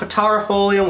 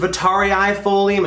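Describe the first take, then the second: First: The vowel before folium is single. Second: The vowel before folium is doubled. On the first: The speaker calls it wrong. "It's not vitarifolium. We've been saying it wrong" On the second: The speaker calls it right. "Yes, it is vitarii-folium"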